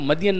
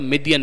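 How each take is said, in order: First: The first vowel is an 'a' sound. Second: The first vowel is an 'i' sound. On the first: This is the form used in the Quran. "Quran मजीद ने जो लफ्ज़ इस्तेमाल किया है वो मदियन" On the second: "मीम के नीचे आपको ज़ेर मिलेगी"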